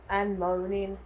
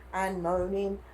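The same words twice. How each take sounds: The two takes are said the same way.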